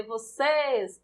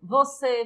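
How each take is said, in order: First: Vocês with a long, drawn-out "cês"; slow vocês, holding the "cês" to show the stress; stress on final syllable. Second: Said in the usual way. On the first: Shown as a demonstration. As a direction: stretch the last syllable of vocês. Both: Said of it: "a sílaba tônica é o ces".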